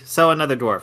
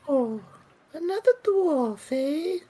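First: It is said in his regular voice. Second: It is said in a put-on character voice.

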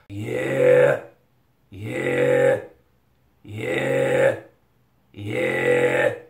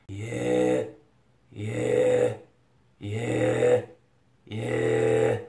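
First: The voice is fuller and more forceful. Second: The voice is lighter and less forceful. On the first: "direct the sound to the area of your upper front teeth and your hard palate, like this" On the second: "You can do it in a more light way"

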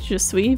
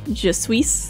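First: It is said with a natural French accent. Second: It is said with a bad French accent.

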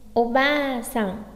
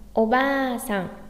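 Both takes have the same delivery.

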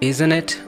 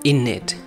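First: Both words are fully pronounced. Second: The words are reduced and run together. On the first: "Instead of using isn't it" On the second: "you can use in it"

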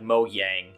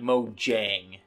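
First: The name is pronounced the Swedish way. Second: The name is pronounced the English way. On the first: The speaker calls it right. "I think it is, like, Mojang. Like Swedish" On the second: The speaker calls it wrong. "I know it's not like Mojang"

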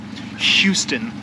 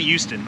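First: The word starts with a clear H sound. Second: The word starts without an H sound. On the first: "I don't say Houston" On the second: "I don't know if everyone in Texas doesn't pronounce H, but I say Houston"

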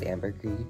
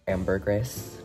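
First: It is said with a French-style pronunciation. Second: It is said with an Americanized pronunciation. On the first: The speaker calls it right. "it originates from France and it's like properly pronounced as ambergris" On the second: The speaker calls it wrong.

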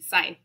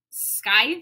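First: The word starts with no k sound. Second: The word starts with a k sound. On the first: The speaker calls it right. "No C" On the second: The speaker calls it wrong. "I can't say it right. That's not how it's said"

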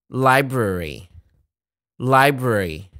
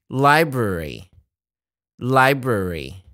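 The two takes are said the same way.

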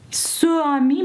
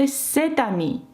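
First: No t sound links the two words. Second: A t sound links the two words. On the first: The speaker calls it wrong. "«Ce ami» ми не можемо сказати" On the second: The speaker calls it right. "Ми можемо сказати «cet ami»"

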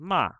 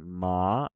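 First: The pitch stays level throughout the syllable. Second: The pitch rises through the syllable. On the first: "or a flat tone" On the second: "a rising ma"

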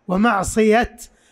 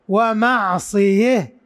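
First: The word ends in a clear t sound. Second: The word ends in an h sound after 'e'. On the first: "يقفون بالتاء" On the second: "يقف بالإمالة"

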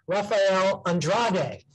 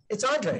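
First: The name is pronounced as Andrade. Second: The name is pronounced as Andre. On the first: The speaker calls it right. "I'm going to say it correctly now" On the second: The speaker calls it wrong. "it's not Andre"

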